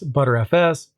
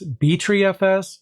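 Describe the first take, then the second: First: The name starts with the word butter. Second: The name starts with the letters B tree. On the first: "I've most often heard of it being pronounced as ButterFS" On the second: "I've actually heard of it pronounced as BTreeFS"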